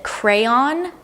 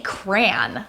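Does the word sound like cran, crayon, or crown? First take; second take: crayon; cran. First: It is said as the full form crayon. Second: It is said as one syllable, like cran. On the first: "One of them pronounces it crayon" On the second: "I say cran, like cranberry"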